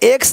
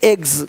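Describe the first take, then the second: First: The word ends with a hissing s sound. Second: The word ends with a buzzing z sound. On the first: The speaker calls it wrong. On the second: The speaker calls it right.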